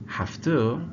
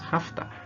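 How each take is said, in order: First: Both words are said fully and separately. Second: The words blend together as 'hafta'.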